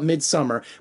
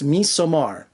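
First: The D in the middle is pronounced. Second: The D in the middle is silent. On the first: This is the usual English way of saying it. "we call it Midsummer" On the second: This is the Swedish way of saying it. "the Swedish kind of pronunciation and the D is silent"

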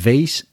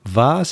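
First: It is said with an American accent. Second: It is said with a British accent.

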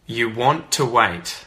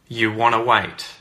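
First: Both words are said fully and separately. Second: The words blend into one reduced word.

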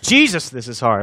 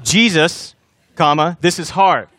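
First: It runs on without a pause after Jesus. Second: There is a clear pause after Jesus.

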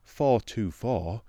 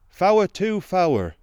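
First: Each 'four' is said as one syllable. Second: Each 'four' is stretched into two syllables. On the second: "A man with working hands ... said"

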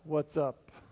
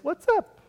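First: The voice sounds bored and annoyed. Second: The voice sounds warm and friendly. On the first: The speaker is not glad to see the person and asks what they want. "I most often get the rolled eyes, what's up, which means it's not really that good to see you" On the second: The speaker is glad to see the person and asks how they are. "it's good to see you, and how are you doing is what's up"

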